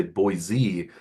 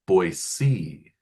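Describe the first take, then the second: First: Put-on Boise with a buzzing Z, BOY-zee; non-local Boise. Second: Put-on Boise with an S, BOY-see, stretched out; local Boise. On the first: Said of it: "They don't say Boise". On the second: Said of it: "they say Boise". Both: Shown as a demonstration.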